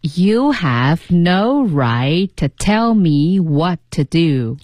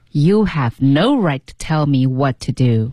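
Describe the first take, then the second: First: Very slow, drawn-out practice read; slow repeat reading. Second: Slightly slow, connected practice read; measured repeat reading. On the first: Co-host repeats after the teacher, very slowly. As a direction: follow the model word by word, stretched out. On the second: Co-host repeats the second read, measured and connected. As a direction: echo the sentence smoothly at a learner's pace. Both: Shown as a demonstration. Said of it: "那我们来读两遍".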